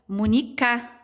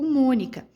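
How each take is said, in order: First: The stress is on the third syllable. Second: The stress is on the first syllable. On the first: The speaker calls it wrong. "Será que é o K?" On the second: The speaker calls it right. "a sílaba mais forte é o Mônica"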